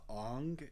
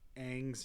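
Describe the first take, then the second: First: The vowel is an open 'ah' sound. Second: The vowel is the 'a' sound of bang. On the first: The speaker calls it wrong. "figured that was an ah sound" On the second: The speaker calls it right. "the ang sound that it is"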